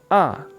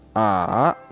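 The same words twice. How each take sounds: First: The pitch drops sharply from high to low. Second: The pitch dips low, then comes back up. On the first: "Nada empat, seseng" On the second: "Nada tiga, sanseng"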